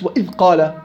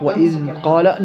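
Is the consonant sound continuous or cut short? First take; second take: cut short; continuous. First: The consonant sound is stopped abruptly. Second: The consonant sound flows on continuously. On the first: The speaker calls it wrong. "مش وإذ قال" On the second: The speaker calls it right. "نعم هيك الصح"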